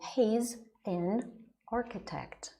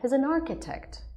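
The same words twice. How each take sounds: First: The words are separated by small breaks. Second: The words run together without any breaks. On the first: The speaker calls it wrong. "our students often do that. They say" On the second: The speaker calls it right. "you teach them from the start to do that"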